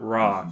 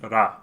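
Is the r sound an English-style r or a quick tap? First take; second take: English r; tap. First: The r is an English-style r sound. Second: The r is a quick tongue tap. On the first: The speaker calls it wrong. "it's not ra" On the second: The speaker calls it right. "that T sound, that's the Japanese R"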